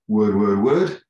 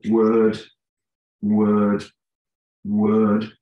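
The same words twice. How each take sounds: First: The pitch sounds like a question. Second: The pitch sounds like a statement. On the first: It is heard as a question or questionable. "that is interpreted by the person's unconscious mind as a question" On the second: It is heard as a statement. "that's interpreted by the unconscious mind as a statement"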